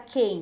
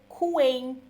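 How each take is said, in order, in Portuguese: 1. Não se ouve nenhum som de w depois do k. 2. Ouve-se um som de w depois do k. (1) "ele conhece a palavra quem" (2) "ele tá lendo todos os fonemas"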